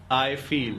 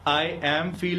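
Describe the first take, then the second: First: Said in the usual way. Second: "I am feel" held up as the mistake; wrong example. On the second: Shown as a demonstration. Teacher shows learners the wrong form, "I am feel" lifted. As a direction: set up "I am feel" to be rejected. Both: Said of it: "नहीं".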